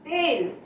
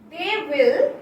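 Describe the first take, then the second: First: It is said as one contracted syllable. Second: It is said as two full words.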